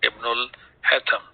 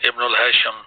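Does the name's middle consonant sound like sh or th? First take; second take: th; sh. First: The middle consonant is pronounced as th. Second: The middle consonant is pronounced as sh. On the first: The speaker calls it right. "Sheen is not there in the Arabic language, so we will call it as Ibnul Hatham" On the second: The speaker calls it wrong. "that we pronounce as Ibnul Hashim"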